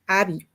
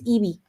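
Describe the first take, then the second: First: The name is said with American English pronunciation. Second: The name is said with Spanish pronunciation. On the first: "in U S A uh, the sound is Abby" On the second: "in the Spanish is Ivy"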